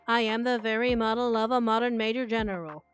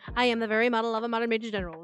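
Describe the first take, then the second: First: It is said slowly. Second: It is said very fast.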